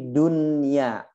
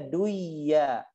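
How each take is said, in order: First: The n is clearly kept before the y. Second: The n is merged into the following y. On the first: The speaker calls it right. "disebutkan seperti dunya" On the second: The speaker calls it wrong. "Nggak boleh bacanya duya"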